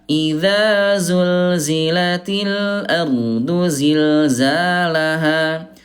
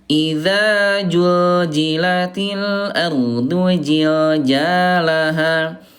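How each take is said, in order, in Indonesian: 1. Konsonan yang berulang itu bunyi z. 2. Konsonan yang berulang itu bunyi j. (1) "Bunda pakai zai ya" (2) "bukan pakai jim"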